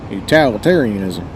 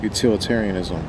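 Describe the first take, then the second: First: Utilitarianism as "you-TAL-itarianism", country style; country pronunciation. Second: Utilitarianism with a short i, "you-TIL"; Utilitarianism, standard "til" in the second syllable; standard pronunciation. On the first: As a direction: open the second syllable of Utilitarianism to a twangy "tal". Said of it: "I like my country pronunciation". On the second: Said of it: "I like my pronunciation". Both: Shown as a demonstration.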